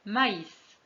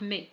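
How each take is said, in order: First: مايس with both vowels sounded, "ma-is"; tréma pronunciation. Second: مي as one vowel sound, "meh"; pronunciation without tréma. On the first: French teacher showing the tréma, مايس said "ma-is". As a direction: say مايس as ma plus ees. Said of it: "بوضوح كل واحد على حدة". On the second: French teacher dropping the tréma, مي said "mè". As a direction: merge the vowels of مي into "mè". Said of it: "لكان النطق مختلفًا". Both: Shown as a demonstration.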